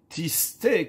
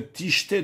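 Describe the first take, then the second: First: The middle consonant is a plain s sound. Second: The middle consonant is an sh sound. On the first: She turned aside. "s'écrit avec un sin" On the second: She was seized by folly. "qui peut se lire aussi avec un shin"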